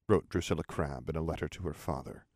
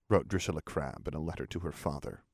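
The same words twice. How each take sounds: The two takes are said the same way.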